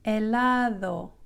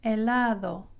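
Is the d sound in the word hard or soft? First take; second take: soft; soft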